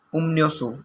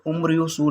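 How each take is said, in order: First: उम्न्योसो with an N sound after M; nasalized consonant reading. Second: उम्रियोसो with an R sound after M; unchanged R reading. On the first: Teacher showing learners how मियम before रियल sounds, N in उम्न्योसो. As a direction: say उम्न्योसो, the रियल turned into नून. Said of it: "इसकी आवाज़ जो है नून की निकलती है". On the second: Teacher warning learners off the spelling-based reading, R kept in उम्रियोसो. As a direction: say उम्रियोसो, keeping रियल as R. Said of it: "इसको उम्रियोसो नहीं पढ़ना". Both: Shown as a demonstration.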